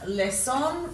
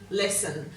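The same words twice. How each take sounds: First: The last syllable has a full, clear vowel. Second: The last syllable has a weak schwa vowel. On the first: This way makes the spelling easier. "we don't pronounce them that way most of the time" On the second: This is the everyday way people say it. "So we give these a schwat sound as well"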